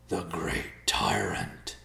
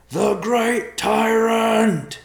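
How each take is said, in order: First: Slow, breathless hushed awe; breathless whisper. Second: Loud drawn-out warning call; shouted warning. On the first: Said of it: "Riverpaw whispered breathlessly". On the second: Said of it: "called out in warning". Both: A narrator's reading.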